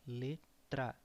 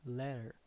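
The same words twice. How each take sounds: First: Letra with a clear rolled r and final open a; Portuguese Letra. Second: Letter said the English way, with r-coloured ending. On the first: Teacher models Letra against English letter, Portuguese sounds. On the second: Teacher contrasts English Letter with Portuguese, English sounds. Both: Shown as a demonstration. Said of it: "That means letter".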